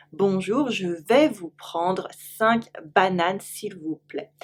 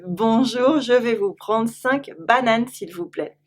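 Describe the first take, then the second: First: Slow it down so learners can copy; slower repeat. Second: "je vais vous prendre cinq bananes" at natural pace; model French request. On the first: Teacher slowly repeating the banana order. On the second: Teacher modelling a banana order in French. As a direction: ask for bananas like a French shopper. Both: Shown as a demonstration.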